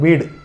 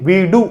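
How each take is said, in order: First: The final vowel is short and reduced. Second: The final vowel is said fully and clearly. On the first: The speaker calls it right. "சிம்பிளா சொல்லும், அதனுடைய ஒலி குறையும்" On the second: The speaker calls it wrong. "வீடு அப்படின்னு சொல்லுமா? சொல்ல மாட்டோம்"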